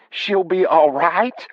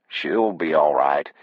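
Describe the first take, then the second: First: High, drawn-out disbelieving question; slow, high-pitched incredulous wife. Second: Said in the usual way. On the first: Acted. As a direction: echo it back in a high voice, stretched and rising. Wife throws his words back.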